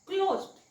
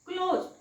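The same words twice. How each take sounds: Both takes have the same delivery.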